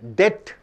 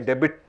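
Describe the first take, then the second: First: The b is silent, one syllable. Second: The b is sounded, two syllables. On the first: The speaker calls it right. "It is pronounced as debt" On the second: The speaker calls it wrong. "You don't say debit"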